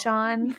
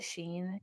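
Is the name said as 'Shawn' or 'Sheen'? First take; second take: Shawn; Sheen. First: The name is said like 'shawn'. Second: The name is said like 'sheen'. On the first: The speaker calls it right. "because it's the S-E-A-N, Sean" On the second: The speaker calls it wrong. "I might at some point pronounce it Sheen"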